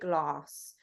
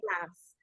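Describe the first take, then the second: First: Glass is said in the speaker's usual accent. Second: Glass is said in an American accent. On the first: "I say glass" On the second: "Americans say glass"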